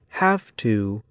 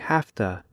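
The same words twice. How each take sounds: First: Both words are said slowly and fully. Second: The words blend quickly into a reduced form. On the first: "In slow speech, Americans say have to" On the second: "in fast speech, Americans say have to"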